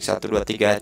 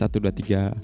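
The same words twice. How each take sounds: First: The voice has a slight, unpleasant echo. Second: The voice sounds deeper, bass-heavy and crisp. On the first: The speaker calls it wrong. "ada uh, sedikit gemanya itu yang enggak seberapa enak untuk didengar" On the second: The speaker calls it right. "suaranya itu loh jadi lebih ngebas, lebih ada karakternya"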